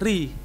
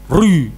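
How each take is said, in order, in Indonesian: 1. Bunyi r ringan dan tipis. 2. Bunyi r berat dan tebal. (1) "Harusnya kan bukan rul, tapi ri" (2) "Tidak boleh ri, enggak boleh. Tidak boleh tebal"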